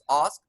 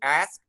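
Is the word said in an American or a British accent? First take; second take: British; American. First: The word is said in a British accent. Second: The word is said in an American accent. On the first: "British, of course, ask" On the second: "American ask"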